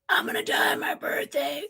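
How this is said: It imitates the brother's larynx-cancer voice.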